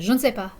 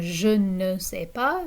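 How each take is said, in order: First: It is said fast with syllables run together. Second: Every syllable is said clearly and in full. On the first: "if you're speaking quickly, people are speaking informally" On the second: "instead of saying"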